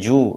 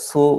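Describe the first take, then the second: First: The word begins with a j sound. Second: The word begins with a hissing s sound. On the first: "ചിലരത് ജൂ എന്ന് പറയും" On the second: "ചിലരത് സു എന്ന് പറയും"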